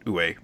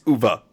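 First: The name is said with English-style vowels and consonants. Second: The name is said with German-style vowels and consonants. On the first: The speaker calls it wrong. "we have been saying it wrong the whole time" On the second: The speaker calls it right. "somebody from Germany to pronounce it correctly for me, and it's Uva"

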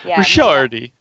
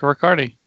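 First: The surname is given an Italian pronunciation. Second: The surname is given an American pronunciation. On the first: Mimics people who correct the speaker's name. "it irritates me when people correct me" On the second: The speaker's own preferred form of the name. "I pronounce my name absolutely the American way"

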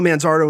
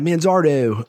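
First: The name is said in a plain accent. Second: The name is said in a Baltimore accent.

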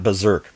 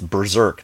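First: The first syllable has no R sound. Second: The first syllable has an R sound. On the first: The speaker calls it wrong. "missing the first R" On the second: The speaker calls it right. "It's Berserk"

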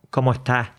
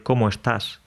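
First: It is said with an Andalusian accent. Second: It is said in neutral Spanish.

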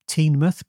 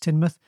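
First: The first syllable sounds like 'teen'. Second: The first syllable sounds like 'tin'. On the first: The speaker calls it wrong. "even though you'd think it'd be Teenmouth, but it's not" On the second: The speaker calls it right. "it's pronounced just like tin"

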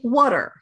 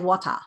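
First: It is said in an American accent. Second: It is said in a British accent. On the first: "We say water. We pronounce all of our R's" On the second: "We British accents say water"

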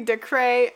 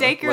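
First: The name ends in a 'cray' sound. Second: The name rhymes with acre, with a long vowel. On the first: "Or it could be Decray" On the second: "like the word acre"

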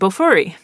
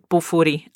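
First: The r is a smooth English-style r. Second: The r is a quick tongue tap.

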